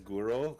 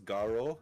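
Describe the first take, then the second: First: The first vowel is a rounded 'oo' sound. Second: The first vowel is an open 'ah' sound. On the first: The speaker calls it wrong. "do not pronounce it as Guro, because that's completely different" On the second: The speaker calls it right. "let's make sure that you pronounce that right. It's Garo"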